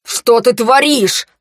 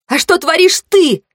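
First: Slow, raised angry demand; furious. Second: High, indignant counter-question; accusing. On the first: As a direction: draw out the question in anger. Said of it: "Акс разъярённо наступал на меня". (разъярённо, с растяжкой) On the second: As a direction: throw the accusation back, pitched high. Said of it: "Я обвинительно ткнула в него пальцем". (обвиняюще, высоким голосом) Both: A narrator's reading.

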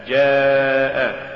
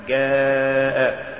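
First: Said in the usual way. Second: جاء said "gaa'", hard g, long chanted vowel; faulty drawn-out جاء, g replacing j; mispronounced ج. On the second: Shown as a demonstration. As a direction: say جاء with g as in "go", held very slow. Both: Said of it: "تقرأ لحنا".

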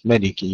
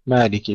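First: مالكي as "maliki", short first a; short reading. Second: مالكي as "maaliki", long first a; with alif. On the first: Teacher showing the others' reading, no alif in مالكي. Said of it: "والباقون قرأوها بالقصر". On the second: Teacher showing Asim's reading, long alif in مالكي. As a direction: lengthen the first vowel of مالكي. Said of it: "بالألف". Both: Shown as a demonstration.

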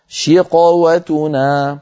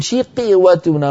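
First: شقوتنا with a full heavy ق, drawn out slowly; correct reading. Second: شقوتنا with the ق given a thin qi sound, drawn out slowly; wrong reading. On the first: Teacher shows how reciters actually read it. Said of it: "بل يقولون". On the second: Teacher shows the reading no one uses. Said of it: "ما أحد يقول". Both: Shown as a demonstration.

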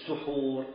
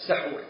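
First: سحور said su-hoor, rounded first vowel; سحور as suhur, the act of eating before dawn; suhur with a damma. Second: سحور said sa-hoor, open first vowel; سحور as sahur, the food eaten before dawn; sahur with a fatha. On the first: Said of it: "لكن إذا قلت". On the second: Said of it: "إذا قلت". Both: Shown as a demonstration.

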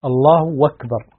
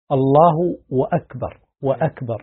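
First: "أكبر" run on as "wakbar", no glottal stop; hamza as waw. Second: "وأكبر" as "wa-akbar", w added before the hamza; extra waw added. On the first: Sheikh demonstrating valid dialect form, "أكبر" said "wakbar". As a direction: say الله then "wakbar", w in place of hamza. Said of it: "يقلبون الهمزة واوا". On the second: Sheikh showing a common mistake, "وأكبر" said "wa-akbar". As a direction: keep both w and glottal stop in "وأكبر". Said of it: "هذا غلط". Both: Shown as a demonstration.

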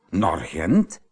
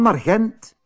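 First: "Naar Gent?" starting low with a questioning rise; incredulous question. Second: "naar Gent" pitched high, tossed back cheekily; cheeky. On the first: Mother reacts to Tijl's plan, incredulous question. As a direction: echo "Naar Gent?" from low to rising, in disbelief. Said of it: "riep zijn moeder". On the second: Tijl tells mother he's off to Gent, cheekily. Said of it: "Tijl antwoordde brutaal". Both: A narrator's reading.

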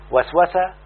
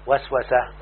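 First: وسوسة said "waswasa", raised at the end; verb form. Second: وسوسة said "waswasah", dropped at the end; noun form. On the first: Teacher citing the verb before its noun, وسوسة as raised "waswasa". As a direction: say وسوسة as WAS-wa-sa, left open. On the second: Teacher answering with the noun, وسوسة as lowered "waswasah". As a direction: say وسوسة as WAS-wa-sah, closed off. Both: Shown as a demonstration.

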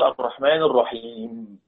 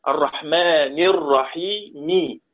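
First: الرحيم ending on a silent m, with no kasra; pausal sukun. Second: الرحمن الرحيم read slowly with the final kasra voiced; slow recitation of الرحيم ending in an i; full case vowels. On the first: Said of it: "لما بنقف عليها بنقول". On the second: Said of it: "مبنية على الفتح". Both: Shown as a demonstration.

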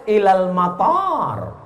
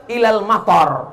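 First: Matar with a long drawn first a, slow. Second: Matar with a clipped short a; matar, short first a. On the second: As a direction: say matar with a short a, meaning rain. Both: Shown as a demonstration. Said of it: "Mestinya pakai alif".

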